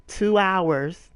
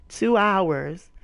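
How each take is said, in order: Both takes have the same delivery.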